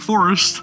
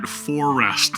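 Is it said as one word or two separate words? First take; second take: one word; two words. First: It is said as one single word. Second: It is said as two separate words. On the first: The speaker calls it wrong. "not Forest" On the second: The speaker calls it right. "that's right, For Rest"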